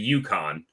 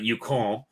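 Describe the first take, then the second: First: Yukon is said with an English pronunciation. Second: Yukon is said with a French-style pronunciation. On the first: The speaker calls it right. "in English, that's the Yukon" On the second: The speaker calls it wrong. "Not Yukon"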